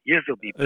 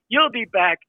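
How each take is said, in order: First: The first word is slurred into 'yizzle', New York style. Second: The first word is said as a plain 'you'll'. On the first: The speaker calls it right. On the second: The speaker calls it wrong.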